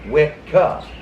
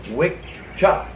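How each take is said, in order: First: The middle consonant is a hard k sound. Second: The middle consonant is a ch sound. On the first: The speaker calls it wrong. "It wasn't pronounced wet cuh" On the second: The speaker calls it right. "The double C in Old Gaelic is pronounced chuh"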